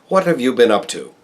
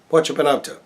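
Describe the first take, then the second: First: Every word is said fully and carefully. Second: Words are reduced and run together casually. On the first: "American Standard or Broadcast Standard" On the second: "we speak just like those around us in a day-to-day parlance"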